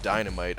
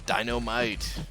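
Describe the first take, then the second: First: It is said in the speaker's ordinary voice. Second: It is said in an exaggerated imitating voice.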